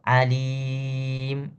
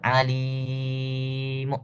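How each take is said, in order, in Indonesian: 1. Kata itu berakhir tanpa bunyi vokal setelahnya. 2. Kata itu berakhir dengan bunyi vokal yang samar dan pelan. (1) "Itu ismam namanya" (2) "Ar-raum itu suara kecil"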